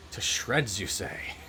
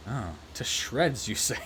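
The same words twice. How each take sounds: First: A hint of a doddery old professor, mildly puzzled; lightly voiced old professor. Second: Slow, drawn-out mock surprise on the repeated line; slow deadpan repeat. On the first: Professor taking a call, lightly puzzled old voice. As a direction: ask it lightly, like an absent-minded old man. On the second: Professor hearing about the wife, slow deadpan repeat. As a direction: stretch the punchline slowly, half-puzzled. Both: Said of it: "he's just like".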